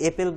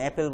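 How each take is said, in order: First: The first vowel sounds like the vowel in 'bed'. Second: The first vowel sounds like the vowel in 'cat'. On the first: The speaker calls it wrong. "আমরা তো এপেল বলি না" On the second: The speaker calls it right. "অ্যাপেল বলি"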